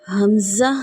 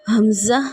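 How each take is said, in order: Both takes have the same delivery.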